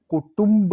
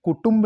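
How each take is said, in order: First: Said in the usual way. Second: कुटुंब with "tamb" for "tumb"; mispronounced कुटुंब. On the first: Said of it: "कुटुंब होता है". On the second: Shown as a demonstration. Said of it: "कुटुंब नहीं होता".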